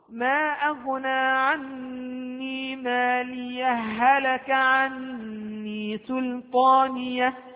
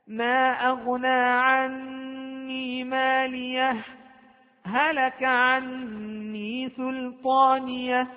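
First: No break; the two h sounds merge into one. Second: A brief silent break without a breath between phrases. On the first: "في الوصل اجتمعت عندنا هاءان، الأولى ساكنة والثانية متحركة، فأدغم الثاني في الأول وصارت هاء واحدة" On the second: "طيب السكت"

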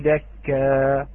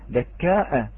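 First: The word ends in a long vowel without a glottal stop. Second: The word ends with a glottal stop after the long vowel. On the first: "حذف هذه الهمزة، وإذا وقف عليها وجعله دكا، هكذا" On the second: "وقرأها البعض كحفظ دكاء"

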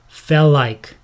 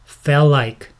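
Both takes have the same delivery.

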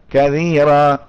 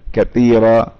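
First: The middle consonant is a voiced th. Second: The middle consonant sounds like a t. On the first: "هكذا كثيرا، يعني يجهرها" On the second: "او تدرك التاء بها البعض في العامية"

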